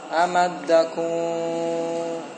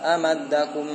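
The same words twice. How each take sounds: First: The lips leave a gap and the vowel lengthens. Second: The lips close and the vowel stays short. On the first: The speaker calls it wrong. "Jadi panjang dhammahnya" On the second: The speaker calls it right. "rapat amadakum... Tapi jangan terlalu kuat"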